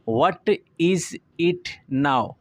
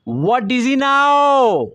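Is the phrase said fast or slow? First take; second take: slow; fast. First: The phrase is said slowly, word by word. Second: The phrase is said quickly with words run together. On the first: "अगर हम slow में इसे बोलते हैं" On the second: "real fast English में pronounce जो करेंगे तेज़ी से स्मूथ फ्लो के साथ"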